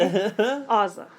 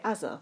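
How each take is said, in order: First: "Aza" with a long open "ah" first; American-style Aza. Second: "Azza" with a short flat "a" as in "as"; English-style Azza. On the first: Co-host reads out her phonetic spelling, American-style pronunciation. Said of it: "that's the way an American would say it". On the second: Co-host argues how English people say it, English pronunciation. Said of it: "I feel like we would say". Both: Shown as a demonstration.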